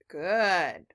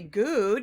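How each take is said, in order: First: The vowel is a short uh sound. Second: The vowel is a long oo sound. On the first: The speaker calls it right. "We say uh uh good" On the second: The speaker calls it wrong. "we don't say good"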